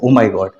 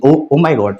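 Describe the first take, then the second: First: It sounds shocked and upset. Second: It sounds surprised and pleased. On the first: Something bad has happened. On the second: Something good has happened.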